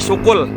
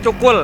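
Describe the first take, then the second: First: The word begins with a sh sound. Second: The word begins with a ch sound. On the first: The speaker is already tired. "kalau udah capek syukul" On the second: The speaker is not tired yet. "Kalau nggak capek bilangnya cukul"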